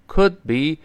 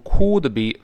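First: "could be" with short relaxed vowel and unreleased d, slow; correct short vowel. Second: "could be" as a long oo, "coo-duh-bee", forceful; wrong vowel. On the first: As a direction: say "could be" slowly, vowel like "uh", d held. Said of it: "发呃". (could be发“呃”，d不爆破) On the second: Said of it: "不要读could be". (错误示范：could be读成“酷的比”) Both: Shown as a demonstration.

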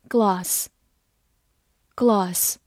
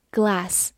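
First: GLOSS as British "glass", with a long back "ah"; British pronunciation. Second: GLASS with an American front "a" as in "cat"; American pronunciation. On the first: 非美式读法，与随后美式发音对照. (英式发音，gloss 读如英式 glass，元音为长音“啊”) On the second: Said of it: "美式发音". (美式发音，glass 的 a 读作 cat 中的 a) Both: Shown as a demonstration.

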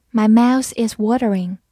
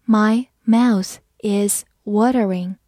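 First: Said in the usual way. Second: Slow, word by word; slow read-along. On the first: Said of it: "慢慢来读". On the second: Shown as a demonstration. Teacher leading learners through the phrase, slow and separated. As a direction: read it slowly with each word apart. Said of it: "好，我们慢慢来读".

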